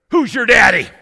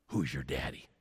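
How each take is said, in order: First: Loud, much higher shout; big booming voice. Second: Much softer, lower echo; hushed, as if whispered around town; quiet murmur. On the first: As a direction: boom the question out. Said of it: "a big booming voice says to me". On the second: That's what they all asked. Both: Retold or imitated.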